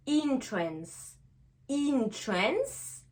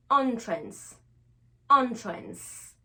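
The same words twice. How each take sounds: First: Entrance begun with "in", said slowly twice; "in" first syllable. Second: Entrance begun with an open "on", said twice; "on" first syllable. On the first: Teacher modelling the verb envoûter, "in" at start of entrance. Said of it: "on va faire le son in". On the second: Teacher modelling the noun entrée, "on" at start of entrance. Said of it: "on va faire le son en". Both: Shown as a demonstration.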